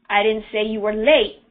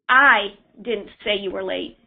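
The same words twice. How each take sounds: First: The stress is on "late". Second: The stress is on "I".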